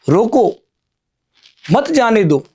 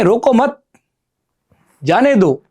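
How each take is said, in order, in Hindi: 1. विराम शब्द roko के ठीक बाद आता है। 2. विराम शब्द mat के ठीक बाद आता है। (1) "इसका अर्थ हम उस व्यक्ति को रोकना चाहते हैं।" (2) "अर्थात हम उस व्यक्ति को जाने दे रहे हैं।"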